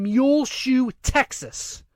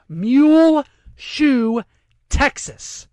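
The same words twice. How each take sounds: First: Said in the usual way. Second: "Muleshoe, Texas" drawn out very slowly, high and loud, with a pause before "Texas"; slow, high, disbelieving repeat of "Muleshoe, Texas"; incredulous emphasis. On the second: Real, not acted. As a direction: stretch each part of "Muleshoe" loudly, then set "Texas" apart. Repeats town name to ridicule it.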